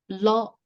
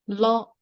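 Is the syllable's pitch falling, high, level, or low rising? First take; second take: high; high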